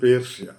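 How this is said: It is said with a Malayalam pronunciation. "മലയാളത്തിൽ ഇത്"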